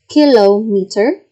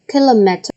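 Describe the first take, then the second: First: "kilometer" as KIL-oh-mee-ter, rising; long-vowel pronunciation. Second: "kilometer" with short, reduced middle vowels; short-vowel pronunciation. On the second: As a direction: say "kilometer" quickly as kil-uh-MET-er. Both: Shown as a demonstration.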